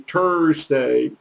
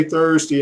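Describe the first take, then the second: First: "Thursday" with a hard T for the TH; "Thursday" opening on t, no th sound; French-speaker's Thursday. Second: Said in the usual way. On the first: Retold or imitated. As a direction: imitate a French speaker saying "Thursday" as "Tursday". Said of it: "if somebody's from France or Canada". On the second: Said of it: "ask 'em to say Thursday".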